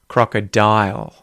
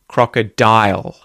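First: The final L is made with the tongue. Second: The same.

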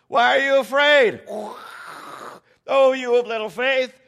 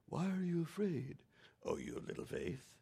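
First: It sounds playful and excited, like a tease. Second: It sounds like a scolding rebuke.

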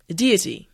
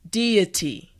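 First: The word is said at normal speed. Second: The word is said slowly. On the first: "now let's say it at a normal pace" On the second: "Now repeat after me"

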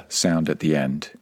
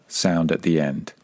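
No difference in how they are said.

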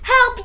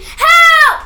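First: It is said quietly and weakly. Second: It is screamed loudly.

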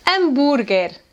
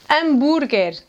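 Both takes have the same delivery.

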